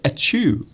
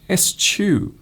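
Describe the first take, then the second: First: It is said without an s sound. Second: It is said with an s sound. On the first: The speaker calls it wrong. "it looks like it it should be pronounced maybe as you said" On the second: The speaker calls it right. "actually you pronounce it exactly how, as it, as it is written"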